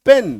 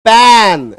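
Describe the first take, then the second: First: पेन said lightly, no force on the vowel; short, relaxed पेन; gentle short vowel. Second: पैन drawn out long and loud; loud, overlong पैन as a bad example; wrong forced vowel. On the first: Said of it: "प्यार से पढ़ना है". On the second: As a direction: lean hard on a stretched vowel in पैन. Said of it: "ऐसे नहीं पढ़ेंगे". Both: Shown as a demonstration.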